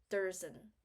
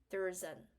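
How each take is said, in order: The two takes are said the same way.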